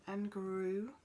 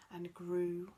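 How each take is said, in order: Both takes have the same delivery.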